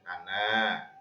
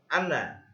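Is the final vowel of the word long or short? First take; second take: long; short. First: The final vowel is held long. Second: The final vowel is kept short. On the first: The reading stops at this word. "kalau kita wakaf maka membacanya boleh panjang" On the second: The reading continues without stopping. "bacaan yang wasal, maka kita membaca ana"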